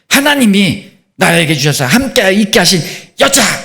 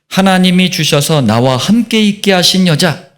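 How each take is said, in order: First: It is said with a resentful, exclaiming tone. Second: It is read in a plain, neutral tone.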